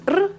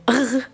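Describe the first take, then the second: First: The R sounds like an Italian R. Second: The R sounds like a German R. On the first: "like the Italian R" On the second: "like the German R"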